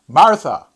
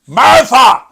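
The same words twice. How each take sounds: First: The name is said at normal volume. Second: The name is shouted loudly. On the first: The speaker is trying to get her attention. "maybe there was a little pause between the two words Martha" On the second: The speaker insists on getting her attention. "Can you imagine Jesus just shouting"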